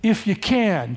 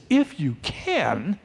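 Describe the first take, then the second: First: Said in the usual way. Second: Slow, questioning echo; softly taken aback, stretched out; incredulous reaction. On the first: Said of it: "The guy says". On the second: Acted. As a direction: throw the words back, drawn out and rising. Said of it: "Jesus reacts to this".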